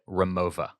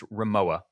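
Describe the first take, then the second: First: The middle consonant is a V sound. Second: The middle consonant is a W sound. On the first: "pronouncing that W European style as a V" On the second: "I've always called this"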